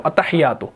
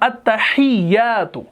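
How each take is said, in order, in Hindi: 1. बीच की 'y' ध्वनि छोटी है और उस पर ज़ोर नहीं है। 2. बीच की 'y' ध्वनि दोहरी है और उस पर ज़ोर है। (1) "बाज लोग ऐसे पढ़ते हैं ... नहीं ये गलत है" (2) "यहां पर आपने थोड़ा सा जोर देना है, क्योंकि यहां पर शद है"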